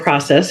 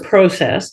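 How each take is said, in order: First: It is said with an American pronunciation. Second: It is said with a Canadian pronunciation. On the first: "if you're my American friends" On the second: "I'm Canadian"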